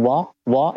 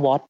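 First: "walk" said as "wo", final consonant dropped; Aussie dropped final consonant. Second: Said in the usual way. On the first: Retold or imitated. Newcomer showing how Aussies say what, imitating dropped endings. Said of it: "อย่างคำว่า what เขาจะพูดว่า". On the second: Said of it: "เขาจะพูดว่า walk walk".

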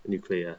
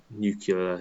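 First: Said in the usual way. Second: "nuclear" garbled as "nucular"; nuclear mispronounced. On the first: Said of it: "instead of nuclear". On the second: Shown as a demonstration. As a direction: say "nuclear" wrong, as NEW-kyuh-luh. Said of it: "I just say different words wrong".

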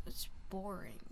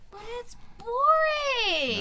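First: Low, soft, trailing grumble; bored complaint. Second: High, loud wail with a drawn-out BORING; loud whiny protest. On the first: Student grumbling about school without drama, quiet bored complaint. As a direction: let it fade almost to a whisper. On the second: Student objecting that no drama is dull, loud whiny protest. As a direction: stretch it out and belt it in complaint. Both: Real, not acted.

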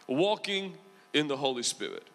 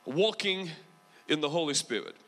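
The two takes are said the same way.

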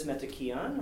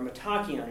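First: Said in the usual way. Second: Metachion said meh-TAH-kee-un, stress on TAH; corrected pronunciation. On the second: Shown as a demonstration. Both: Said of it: "that's how you pronounce it".

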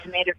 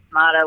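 First: Tomato said tuh-MAY-doh, the American way; long "ay" in the middle of tomato; "ay" pronunciation. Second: Tomato said tuh-MAH-doh, with "ah" in the middle; broad "ah" in the middle of tomato; "ah" pronunciation. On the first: Guest comparing her surname to the old saying, tomato with an "ay". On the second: Guest comparing her surname to the old saying, tomato with an "ah". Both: Shown as a demonstration. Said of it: "whatever you wanna call it".

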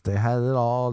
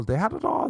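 First: Said in the usual way. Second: Pitched way up, mock dramatic; They had it all lifted high and dramatic; mock sing-song high. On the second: Shown as a demonstration.

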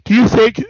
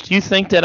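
First: Words stretched by a yawn. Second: Said in the usual way. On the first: Real, not acted. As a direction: say it mid-yawn. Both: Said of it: "Oh, I'm yawning so much".

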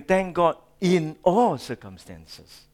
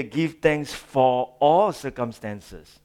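First: "in" set apart and punched; stress on IN. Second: Slow phrase with weight on "for"; stress on FOR. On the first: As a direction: hit the word "in" before "all circumstances". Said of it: "Please note". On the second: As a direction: lean on "for", drawing it out. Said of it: "Paul didn't say". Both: Shown as a demonstration.

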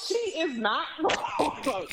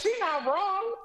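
First: Each word laid down slowly and firmly; slow emphatic repeat. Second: Laughing, pitched up high; laughing agreement. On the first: Backing up the wife, slow and firm. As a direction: spell the agreement out slowly. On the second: Laughing along with the wife, pitched up high. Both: Real, not acted.

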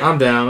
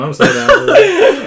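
First: Said in the usual way. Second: High, slow giggling agreement; laughing, drawn out high. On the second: Real, not acted. Laughing hard while agreeing with friends about a recap show. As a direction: stretch it slowly through real laughter.

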